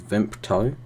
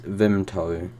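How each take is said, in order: First: A p sound comes before the t. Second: There is no p sound before the t. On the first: The speaker calls it wrong. "commonly mispronounced as Vimpto" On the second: The speaker calls it right. "there's no P in it"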